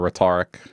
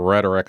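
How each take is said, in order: First: The stress is on the second syllable. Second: The stress is on the first syllable. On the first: The speaker calls it wrong. "I used to say rhetoric. Because you say rhetorical questions" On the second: The speaker calls it right. "instead of saying rhetoric"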